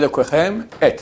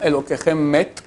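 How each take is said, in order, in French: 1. Les deux mots restent séparés. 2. Les deux mots sont liés ensemble. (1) "Non, il y a Elokechem et" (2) "si tu fais la, la, la liaison"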